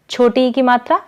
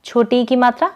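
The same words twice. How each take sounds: The two takes are said the same way.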